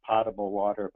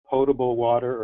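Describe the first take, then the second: First: The first syllable sounds like 'pot'. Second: The first syllable sounds like 'poe'. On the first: The speaker calls it wrong. "not potable water" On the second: The speaker calls it right. "you pronounce it potable water"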